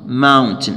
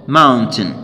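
Both takes have the same delivery.

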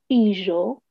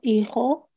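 First: It uses the older Judeo-Spanish consonant sound. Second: It uses the modern Spanish consonant sound. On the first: "en judeo español se dice hijo" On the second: "y no hijo"

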